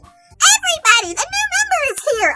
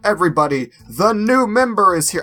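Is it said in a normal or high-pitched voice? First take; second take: high-pitched; normal. First: It is said in a high-pitched character voice. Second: It is said in a normal voice.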